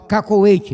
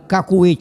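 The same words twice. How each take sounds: First: The second syllable has an 'o' vowel sound. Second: The second syllable has a 'u' vowel sound. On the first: The speaker calls it right. "é cacô, C O" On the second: The speaker calls it wrong. "não é cacoete porque não é C U"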